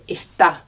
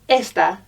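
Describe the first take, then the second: First: The stress is on the second syllable. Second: The stress is on the first syllable. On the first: The speaker calls it right. "say está" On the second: The speaker calls it wrong. "don't say esta"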